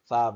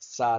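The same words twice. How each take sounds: First: The syllable begins with a lisped th sound. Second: The syllable begins with a hissing s sound. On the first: The speaker calls it right. "سا بولیں گے. سین کی اچار بالکل بھی نہیں نکالیں گے" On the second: The speaker calls it wrong. "سا نہیں بولیں گے"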